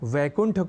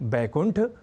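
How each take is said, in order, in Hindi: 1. शब्द की शुरुआत v ध्वनि से होती है। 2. शब्द की शुरुआत b ध्वनि से होती है। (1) "वैकुंठ को" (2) "अशुद्ध प्रयोगों"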